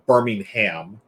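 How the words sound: It is said in an American accent.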